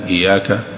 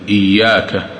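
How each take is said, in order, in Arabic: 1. الحرف الأوسط مفرد وقصير. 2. الحرف الأوسط مشدَّد ويُمَدّ نطقه أطول. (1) "إذا قال مثل إياك إياك لا يصح" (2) "هنا يجب أن يأتي بهذه الشدة"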